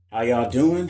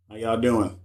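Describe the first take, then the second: First: Said in the usual way. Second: "How y'all doing?" through an app voice filter; the greeting warped by a filter. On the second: Real, not acted. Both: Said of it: "So I got a filter on?".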